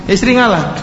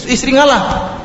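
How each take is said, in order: First: Said in the usual way. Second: "ngalah" raised high with a falling finish; preacher stressing "ngalah" high; emphatic advice. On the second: Shown as a demonstration. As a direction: lift "istri ngalah" high and let it fall.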